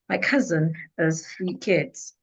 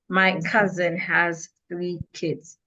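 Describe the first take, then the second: First: Pitch drops on small words, rises on content words. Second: Every word has the same flat energy. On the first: The speaker calls it right. "when I get to function words, my voice should be below... content words, my voice should not be low" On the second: The speaker calls it wrong. "If I use the same energy for all these words, the sentence will be flat"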